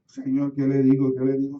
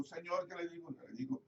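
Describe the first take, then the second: First: Loud, urgent pleading to God; loud plea. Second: Softer, hushed repetition of the plea. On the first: Pastor on the way to the hospital crying out to God, loud and urgent. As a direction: cry out the question louder, desperate. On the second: Pastor praying softly to the Lord before the hospital room. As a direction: drop to a quiet, inward prayer. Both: Retold or imitated.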